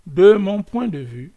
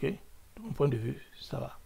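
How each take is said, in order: First: Louder, rising emphasis on de mon point de vue; de mon point de vue said loudly and insistently; emphatic. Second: Hushed whisper of De mon point de vue; De mon point de vue whispered as a private aside. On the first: Repeats phrase, then whispers it. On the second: Repeats phrase as an aside. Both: Shown as a demonstration.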